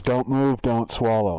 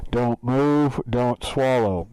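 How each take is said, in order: First: Louder robotic command; a hint of the scanner speaker; lightly imitated machine order. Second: Loud, overmodulated robot order; mock electronic command; distorted machine voice. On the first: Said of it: "Just as the voice goes". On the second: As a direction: imitate the scanner's tinny speaker. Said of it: "it sounds like that, by the way".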